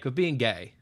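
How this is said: It is said in an odd, put-on voice. "your voice, you made it weird"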